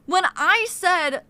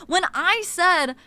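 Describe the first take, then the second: No difference in how they are said.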